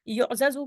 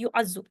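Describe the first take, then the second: First: The two z sounds are separated by a vowel. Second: The two z sounds merge into one doubled z. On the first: This is the expected form before merging. The speaker calls it wrong. "युफ़अलु के वज़न पे युअज़ज़ु होना चाहिए था" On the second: This is the actual form with the sounds merged. The speaker calls it right. "युअज़ज़ु के बजाय युअज़्ज़ु"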